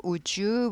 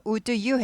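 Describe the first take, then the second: First: "would you" as "u-jyu"; linked pronunciation. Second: "Would you" split as "u-du yu"; unlinked pronunciation. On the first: Teacher explaining the sound change, "would you" linked with J. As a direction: let D and Y melt into a J in "would you". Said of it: "would you 발음이 나게 되죠". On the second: Teacher warning against unlinked "Would you", said with a separate D. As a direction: sound the D apart from "you" in "Would you". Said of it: "do 발음이 나지 않고". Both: Shown as a demonstration.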